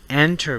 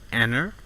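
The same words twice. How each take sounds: First: The T sound after N is pronounced. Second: The T sound after N is dropped.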